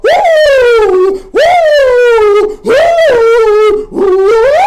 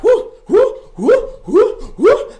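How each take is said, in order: First: Very high, very loud sustained woos. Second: Whooping. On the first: Shown as a demonstration. Host showing viewers how to woo, full volume. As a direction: let each woo ring out full force. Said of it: "open up your mouth and go". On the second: Real, not acted. Cheering during exercise.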